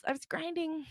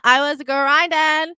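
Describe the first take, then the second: First: High, very soft aside; hushed, high-pitched echo; understated alternate take. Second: Loud, high, drawn-out climax; stretched-out loud declaration; emphatic boast. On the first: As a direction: say it small and high. Same line as the other version. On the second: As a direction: build to a slow triumphant yell. Boastful climax, first take. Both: Acted.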